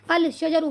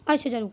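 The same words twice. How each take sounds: First: "अल शजरु" with a clear 'l' before 'sh'; lam sounded. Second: "अश शजरु" with no 'l', a doubled 'sh'; lam silent. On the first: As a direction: pronounce the 'al' fully, then "शजरु". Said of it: "हमारे एतबार से क्या होना चाहिए था". ("अल शजरु" में लाम की आवाज़ साफ़ निकालकर) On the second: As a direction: go from 'a' straight into a held 'sh' in "अश शजरु". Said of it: "यहाँ पर लाम का साउंड नहीं आ रहा है". ("अश शजरु" में लाम चुप, शीन दोहरा) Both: Shown as a demonstration.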